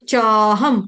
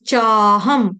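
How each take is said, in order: No difference in how they are said.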